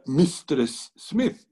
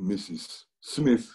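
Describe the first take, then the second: First: The title is pronounced 'mistress'. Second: The title is pronounced 'missus'. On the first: "decía Mistress Smith" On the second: "él traducía mister and missus Smith"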